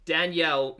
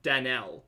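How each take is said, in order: First: Danielle as dan-YELL, y sounded. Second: Danelle as dan-ELL, no y glide; silent Y. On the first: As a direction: punch Danielle with an audible y glide. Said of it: "not Danelle". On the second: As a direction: drop the y sound in Danelle. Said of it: "The Y is silent". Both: Shown as a demonstration.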